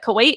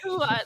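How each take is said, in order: First: The word is said with a w sound inside. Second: The word is said without a w sound inside. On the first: The speaker calls it wrong. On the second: The speaker calls it right.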